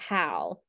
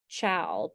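First: The word begins with a k sound. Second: The word begins with a ch sound. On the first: The speaker calls it wrong. "but the child pronounces it cal" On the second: The speaker calls it right. "it's C-H-A-L, chal"

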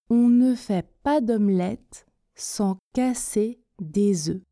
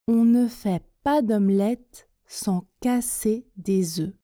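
No difference in how they are said.

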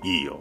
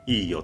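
First: It sounds reluctant and grudging. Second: It sounds willing and genuinely agreeable. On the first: The speaker agrees but actually does not want to. "本当は嫌なんだけどいいよって答える" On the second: The speaker truly agrees. "いいよっていう答え"

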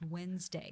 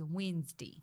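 First: The word is said in a standard accent. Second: The word is said in a Southern accent. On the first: "instead of Wednesday" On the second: "he's got like a deep Southern accent"

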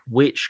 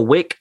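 First: The name ends with a 'ch' sound. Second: The name ends with a 'k' sound. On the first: This is how British people would likely say it. "you got like Norwich and stuff in the UK" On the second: This is how Americans would likely say it. "I think the US would go down the Wick"

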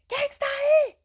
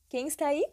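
First: It is said as a simulated shout. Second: It is said in a plain reading voice.

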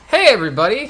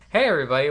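First: It is said in a Mickey Mouse-like voice. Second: It is said in a normal voice.

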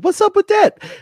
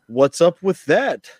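First: It is said loudly with high energy. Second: It is said quietly with low energy.

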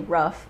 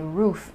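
First: The vowel is short, like in rough. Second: The vowel is long, like in food. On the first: This is how another person says it. "Cause every time she would say rough" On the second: This is how the speaker says it. "I would say roof"

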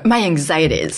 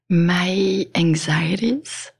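First: It is said at a louder volume. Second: It is said at a normal, quieter volume.

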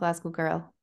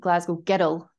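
First: It is said in a milder, less broad accent. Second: It is said in a broad Glasgow accent.

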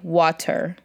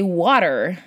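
First: It is said with an Iraqi accent. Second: It is said with an American English accent. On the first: "In Iraq, I would say" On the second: "or you would say"

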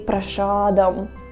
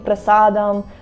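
First: The middle consonant is an 'sh' sound. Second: The middle consonant is a plain 's' sound. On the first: The speaker calls it wrong. "we say prashadam, because that's how Americans say" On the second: The speaker calls it right. "Instead of saying prasadam"

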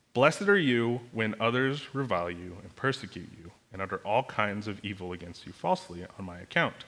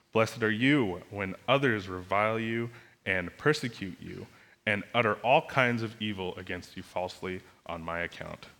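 Both takes have the same delivery.

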